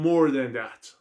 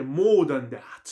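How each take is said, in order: First: "more" with a clear American r. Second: "more" slow, no final r, British style. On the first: Teacher contrasts American "more" for students. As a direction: roll into the r of "more". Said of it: "امریکا میگه more than that". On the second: Teacher shows students British "more" with no r. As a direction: stretch "more" out without the r. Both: Shown as a demonstration.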